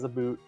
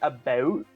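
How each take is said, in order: First: The vowel has a strong Canadian 'aboot' sound. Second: The vowel has only a mild Canadian sound. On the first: "I have a Canadian friend who actually says about" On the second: "it's more like about, but you can still hear it"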